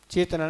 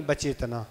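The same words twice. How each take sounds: First: चेतना said without the opening syllable; wrong reading. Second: बचेतना with its opening syllable added; corrected reading. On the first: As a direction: show the faulty चेतना, first sound missing. (चेतना, पहले अक्षर के बिना) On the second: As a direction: show बचेतना with the first sound kept. (बचेतना, पहले अक्षर सहित) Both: Shown as a demonstration. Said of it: "चेतना नहीं, बचेतना".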